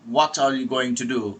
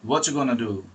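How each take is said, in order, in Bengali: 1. প্রতিটি শব্দ পূর্ণভাবে আলাদা করে বলা হয়েছে। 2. কিছু ধ্বনি বাদ পড়ে এবং শব্দগুলো একসঙ্গে জুড়ে যায়।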